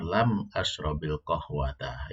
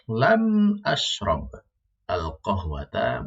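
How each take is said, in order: First: The verb links to the next word with an 'i' sound. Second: The verb ends cut off, kept apart from the next word.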